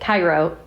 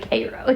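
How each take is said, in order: First: The first syllable sounds like 'ky'. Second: The first syllable sounds like 'kay'. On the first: It is said like the city in Egypt. The speaker calls it wrong. "poor Ryan pronounced it Cairo" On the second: It is said like the local town name. The speaker calls it right. "it was actually Cairo"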